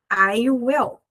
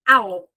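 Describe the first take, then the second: First: It is said as two full separate words. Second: It is said as one contracted syllable.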